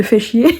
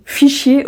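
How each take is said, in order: First: "fait chier" said correctly, two clear syllables. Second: "fichier" said like the word for file, not "fait chier"; mispronounced "fichier". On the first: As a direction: say "fait chier" plainly as the right form. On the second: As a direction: say "fichier" as mom's slip, high and stressed. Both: Retold or imitated. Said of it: "au lieu de".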